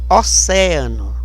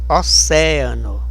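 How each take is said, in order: No difference in how they are said.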